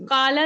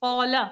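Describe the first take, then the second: First: काला with a thin open aa; light kala, wrong way. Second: कौला with a thick, rounded कौ; heavy qaula. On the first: Teacher contrasts the wrong light काला for students. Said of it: "काला नहीं पढ़ेंगे". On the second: Teacher models the heavy कौला for students. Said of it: "उसको थोड़ा सा हम मोटा करेंगे". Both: Shown as a demonstration.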